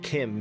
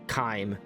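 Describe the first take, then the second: First: It begins with a k sound and short i. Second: It begins with a k sound and long i. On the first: "I'm pronouncing it Kim because that's how Kirkbride said it was pronounced" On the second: "I'd call it Chyme, as in chimera"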